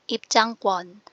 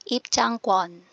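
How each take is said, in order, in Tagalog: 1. Matigas at may diin ang gitnang katinig. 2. Matigas at may diin ang gitnang katinig.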